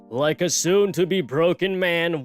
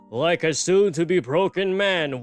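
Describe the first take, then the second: First: It is spoken in an American accent. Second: It is spoken in an odd, non-American accent. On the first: The speaker calls it wrong. "why did I do like an American accent for him?" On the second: The speaker calls it right. "he has like a weird accent"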